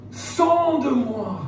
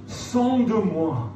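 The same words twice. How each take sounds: The two takes are said the same way.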